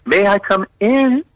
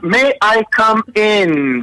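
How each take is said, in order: First: Polite asking. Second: Slow, pitched-up courteous request; polite asking. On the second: Showing how to ask before entering, slow and polite. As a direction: ask nicely, drawn out and high. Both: Shown as a demonstration. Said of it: "That's the nice word you should say".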